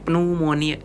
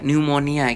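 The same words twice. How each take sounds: First: The word starts with a p sound. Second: The word starts with an n sound. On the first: The speaker calls it wrong. "kalau pakai P jadi pneumonia, nggak enak denger" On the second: The speaker calls it right. "harusnya dibacanya tanpa P"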